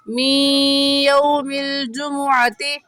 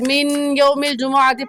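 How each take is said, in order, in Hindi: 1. n, नासिक्य y ध्वनि में मिल जाता है। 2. n ध्वनि y से पहले अलग से बोली जाती है। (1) "सही है" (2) "पढ़ना गलत है"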